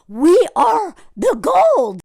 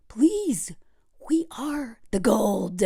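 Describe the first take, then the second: First: "We are the gold" slow, higher and drawn out; emphatic correction. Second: Slow, soft whisper; hushed plea. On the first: Host correcting the gold digger idea, slow emphatic "We are the gold". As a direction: stretch "We are the gold" out slowly, full voice. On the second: Host urging women to know their worth, slow whisper. Hushed take, then repeated forcefully. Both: Real, not acted.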